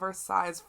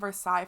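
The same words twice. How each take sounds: First: The final S sound is pronounced. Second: The final S sound is silent. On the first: The speaker calls it wrong. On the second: The speaker calls it right.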